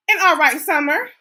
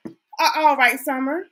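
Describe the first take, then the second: First: "an" said as "and", an all right summer; the slipped take, "an" before "all right"; first try with "an", sounding like "and". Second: Self-correcting to "A all right summer"; corrected article. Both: Shown as a demonstration.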